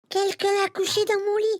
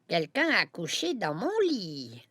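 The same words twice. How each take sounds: First: It is said in a tiny, high voice. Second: It is said in a medium voice.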